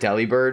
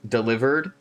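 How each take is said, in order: First: The name ends with a clear 'bird' sound. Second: The name sounds like the word 'delivered'. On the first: The usual way the speaker says the name. "I've always called it Delibird" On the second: Another person's way of saying the name. "Amy brought up an interesting point"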